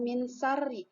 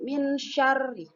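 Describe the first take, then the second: First: The second word starts with a plain s sound. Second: The second word starts with an sh sound. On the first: The speaker calls it wrong. "jangan min sari, min sari salah" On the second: The speaker calls it right. "tapi min syarri"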